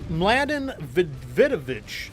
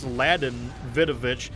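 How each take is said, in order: First: The name begins with a pronounced M sound. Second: The name begins without any M sound. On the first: "I don't know how to pronounce" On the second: "maybe the M is silent"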